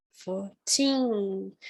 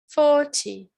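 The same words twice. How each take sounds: First: Put-on fourteen with the weight on teen; fourteen, stressed ending. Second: Forty with a loud, high FOR; forty, strong start; stress on first syllable. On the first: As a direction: let fourteen land on the end. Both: Shown as a demonstration. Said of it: "Viram a diferença".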